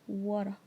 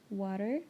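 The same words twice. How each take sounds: First: It is said with an Australian accent. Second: It is said with a standard American accent. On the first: "in Australia, for example, they say water" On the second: "the standard American English is water"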